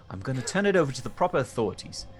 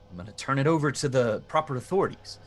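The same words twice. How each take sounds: First: It is said with a British accent. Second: It is said without a British accent.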